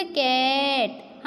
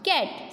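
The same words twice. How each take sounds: First: कैट with the vowel dragged out slowly; overlong, slow कैट; wrong long vowel. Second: कैट with a short, quick A vowel; कैट, vowel cut short; correct short vowel. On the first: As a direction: stretch the A in कैट as a wrong example. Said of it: "हम ऐसे नहीं बोलेंगे". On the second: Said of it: "इसका pronunciation होगा". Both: Shown as a demonstration.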